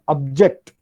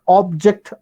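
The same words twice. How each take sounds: First: The stress is on the second syllable. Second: The stress is on the first syllable. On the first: It is used as a verb. "object is verb" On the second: It is used as a noun. "Object is noun"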